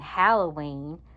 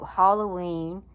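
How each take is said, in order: First: The first syllable sounds like hal, as in Hal. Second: The first syllable sounds like the word hollow. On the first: "and then Halloween" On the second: "because Hollow, Sleepy Hollow"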